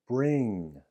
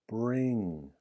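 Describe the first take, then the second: Both takes have the same delivery.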